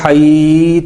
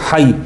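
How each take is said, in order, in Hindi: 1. स्वर खींचकर लंबा किया जाता है। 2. स्वर छोटा है, खींचा नहीं जाता। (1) "अगर किसी ने इसको पढ़ा हई तो गलत पढ़ा" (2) "यहाँ पे मैंने मद क्यों नहीं की?"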